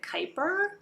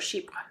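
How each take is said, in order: First: The word is said in an anglicized way. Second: The word is said in a French way. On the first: The speaker calls it wrong. "A lot of people call, pronounce it" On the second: The speaker calls it right. "but it's a French word"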